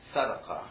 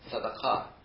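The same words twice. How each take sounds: First: The stress is on the second-to-last syllable. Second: The stress is on the last syllable. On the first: This is the Arabic form of the word. "Arabic likes to stress the next to the last syllable" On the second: This is the Hebrew form of the word. "the Hebrew, tends to want to stress ... the ultimate syllable, the last syllable"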